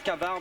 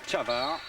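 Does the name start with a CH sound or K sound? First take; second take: K sound; CH sound. First: The name is said as spelled, starting with K. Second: The name is said starting with a CH sound. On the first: This is how the name is written. The speaker calls it wrong. "ça s'écrit Cavard" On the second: This is how the name is really pronounced. The speaker calls it right. "mais on prononce Chavar"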